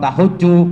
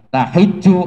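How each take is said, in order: First: The vowel after the h is a u. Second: The vowel after the h is an i. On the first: "Tahuju juga bu, boleh" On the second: "bagusnya dibaca tahiju"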